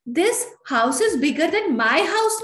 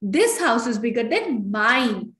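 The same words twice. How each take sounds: First: Higher, slow, doubtful reading of the wrong sentence; raised, slowed, questioning mistaken example; wrong version. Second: Very slow, careful model sentence; slow, deliberate corrected example; correct version. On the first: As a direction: say it slowly, higher, like an error to reject. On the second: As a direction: spell out the right answer slowly. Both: Shown as a demonstration. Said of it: "नहीं".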